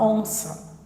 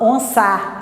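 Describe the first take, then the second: First: The final vowel is a weak schwa. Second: The final vowel is a full open 'a'. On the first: The speaker calls it right. "Esse A você tem um som de schwa, você fala onça" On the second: The speaker calls it wrong. "você não fala onça"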